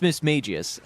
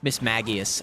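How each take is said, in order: First: The g is soft, as in mage. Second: The g is hard, as in go. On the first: The speaker calls it right. "it makes sense, like a mage or like Majesty" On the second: The speaker calls it wrong. "I always thought it was like Miss Magius"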